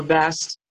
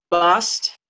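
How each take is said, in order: First: "Bast" with the a of "cat"; short-a pronunciation. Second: "Bast" with an open ah vowel; ah pronunciation. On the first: Teacher giving listeners the alternative name, with a flat short a. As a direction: say "Bast" to rhyme with "gassed". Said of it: "some people say Bast". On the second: Teacher giving listeners the goddess's name, with an ah sound. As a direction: say "Bast" as "bahst". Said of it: "the ah sound is very significant". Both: Shown as a demonstration.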